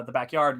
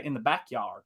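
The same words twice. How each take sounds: First: Said in the usual way. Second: Southern accent. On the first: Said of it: "you don't say the back". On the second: Shown as a demonstration. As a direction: say backyard the Southern way. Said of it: "enunciate things on opposite sides".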